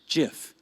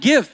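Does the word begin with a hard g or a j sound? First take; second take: j sound; hard g. First: It begins with a j sound. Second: It begins with a hard g sound. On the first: "The correct way to say it is Jif, just like the peanut butter" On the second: "all of society is calling it the opposite"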